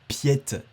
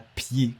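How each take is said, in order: First: The name ends with a clear t sound. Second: The name ends on a vowel, no t. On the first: The speaker calls it right. "ça se dit Piette" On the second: The speaker calls it wrong. "et pas Pied"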